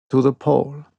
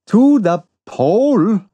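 First: Said in the usual way. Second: Incredulous cry, higher and louder; exclaimed in disbelief. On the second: A narrator's reading. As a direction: blurt it out in disbelief. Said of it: "I exclaimed".

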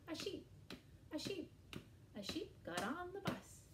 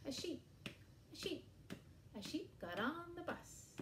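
The two takes are said the same way.

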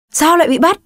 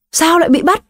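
First: Sharp snap. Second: High, shaky frightened question; mother on the phone, high trembling cry. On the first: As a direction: snap it out at his wife. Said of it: "Ông Quang quát lên". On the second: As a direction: cry it out with the voice shaking. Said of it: "Giọng nói bắt đầu run run, bà Lan hét lên". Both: Acted.

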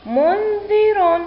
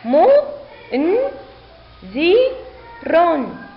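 First: منذر joined as one slow, high word; teacher's high, slow whole-word model; blended word reading. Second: Each sound alone with a pause after it; teacher's slow, separated syllables. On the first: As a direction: run the syllables together, drawn out and clear. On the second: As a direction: sound out mu - n - dhi - run. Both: Shown as a demonstration. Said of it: "لنقرأ الكلمة".

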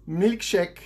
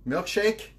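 First: MILKSHAKE said with a French accent; French-accented "milkshake", drawn out and emphatic. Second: Said in the usual way. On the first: Shown as a demonstration. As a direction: say the English word "milkshake" as a French speaker would. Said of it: "You have to say it with a French accent".

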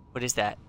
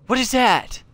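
First: Subdued. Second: High, loud startled question; alarmed. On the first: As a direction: ask it softly, under control. Repeats the question, subdued. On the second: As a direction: blurt it out in alarm. Startled by unknown creature. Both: Real, not acted.

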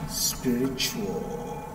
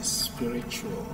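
First: "Spiritual" stretched very slowly and softly, each sound apart. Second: "Spiritual" drawn out slowly, syllable by syllable, listening for a schwa; slow careful check. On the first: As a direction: spell "Spiritual" out very slowly under your breath. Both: Shown as a demonstration. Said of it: "Are you sure there's no schwa".

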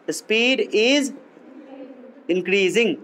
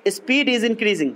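First: "speed is", a long pause, then "increasing"; slow dictation. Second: Said in the usual way. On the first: Shown as a demonstration. Teacher repeating the answer for note-takers, slow dictation. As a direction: dictate it in separate, measured chunks.

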